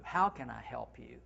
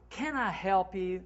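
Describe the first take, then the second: First: Lower, gentle inviting question; warm offer. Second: Said in the usual way. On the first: Shown as a demonstration. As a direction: sound truly happy to help. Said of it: "That's what I like better". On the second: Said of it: "That's boring".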